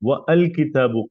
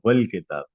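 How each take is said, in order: First: The vowel of al is pronounced separately. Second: The vowel of al is silent, linked. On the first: The speaker calls it wrong. "आप ये यूं नहीं बोलते" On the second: The speaker calls it right. "यहाँ आ नहीं बोलेंगे, ये डायरेक्ट वाव को लाम से मिलाया जाएगा"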